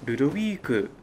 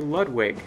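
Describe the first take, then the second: First: The name is said with a Japanese pronunciation. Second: The name is said with an English pronunciation. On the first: "while to Japanese players it's Ludovic" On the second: "English speakers may say Ludwig"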